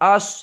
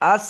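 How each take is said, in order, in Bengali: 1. 's' ধ্বনিটি ভারী ও মোটা। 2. 's' ধ্বনিটি হালকা ও পাতলা। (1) "আস একটু মোটা করে বলবেন" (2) "আস বলবেন না"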